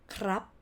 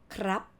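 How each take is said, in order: Both takes have the same delivery.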